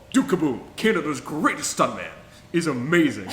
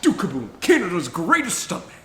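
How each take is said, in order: First: Louder, eager naming of Duke Kaboom; excited praise. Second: Higher, louder hammed-up Duke Kaboom voice; Keanu Reeves as Duke Kaboom. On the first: Real, not acted. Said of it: "First of all". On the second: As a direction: announce yourself like a proud stunt daredevil. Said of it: "where he's like".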